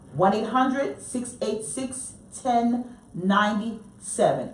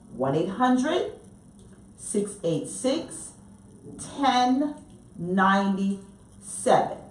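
First: The number is said at normal speed. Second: The number is said slowly and carefully.

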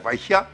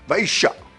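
First: The middle consonant is a light hushed h. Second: The middle consonant is a full French sh. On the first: "la rivière Vaisha devient" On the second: "une altération exagérée et peu élégante"

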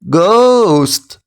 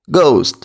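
First: The word is said in a robotic voice. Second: The word is said quickly. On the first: "Тепер як робот по складах" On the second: "Тепер швидко"

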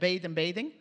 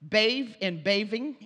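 First: The words use a voiced TH sound. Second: The words use a V sound instead of TH. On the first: "instead of" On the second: "V for the voice TH"

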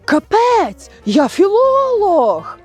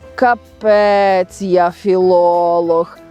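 First: It is said with indignant annoyance. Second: It is said with doubtful uncertainty. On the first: The speaker is offended at being lectured. "І тоді це є обурення" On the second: The speaker doubts their own knowledge. "Тобто невизначеність, сумнів у своїх знаннях"

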